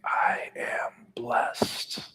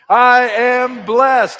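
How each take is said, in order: First: It is whispered with breath, no full voice. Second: It is shouted loudly at full volume. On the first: "Can you whisper it with your mouth and your breath?" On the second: "shouting from the mountaintops"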